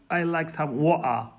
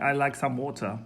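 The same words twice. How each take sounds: First: "water" with the t dropped to a catch in the throat; Cockney glottal stop. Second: Said in the usual way. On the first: Shown as a demonstration. Asking for Cockney from London, glottal-stop "water". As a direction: say "water" as wo'-ah, Cockney style. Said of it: "like saying". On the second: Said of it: "instead of saying".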